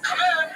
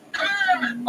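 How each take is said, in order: First: Said in the usual way. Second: Shouting. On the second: Acted. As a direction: yell it through the door. [name] calling at the door.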